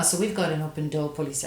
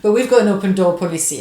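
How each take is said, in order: First: Quick, light attempt at an American accent; a half-hearted American accent, said quickly. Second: Put-on louder, bolder go at an American accent; hammed-up American accent, punched out loud. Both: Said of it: "I can't do an American accent".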